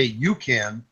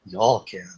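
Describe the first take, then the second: First: Put-on understated Northern girl delivery; Northern girl accent. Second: Southern accent. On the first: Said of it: "the Northern girls say". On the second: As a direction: lower Southern drawl. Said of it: "Southern girls say". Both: Shown as a demonstration.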